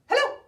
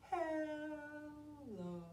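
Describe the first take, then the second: First: It is said very fast. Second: It is said very slowly.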